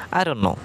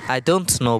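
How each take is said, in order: First: "I don't know" blended into "I dunno", t silent; simple reduced pronunciation. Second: "I don't know" with a clearly sounded t; full pronunciation. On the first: Teacher showing the simple way, reduced "I don't know". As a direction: say "I don't know" quickly as one word. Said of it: "আপনি just simply বলুন". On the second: Teacher showing what you needn't say, full "I don't know". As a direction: keep "don't" and "know" as separate words. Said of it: "বলতে হবে না আপনাকে". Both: Shown as a demonstration.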